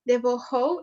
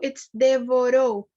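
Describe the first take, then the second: First: The middle R sounds like a strong double R. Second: The middle R sounds like a light single R. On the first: The speaker calls it wrong. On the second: The speaker calls it right.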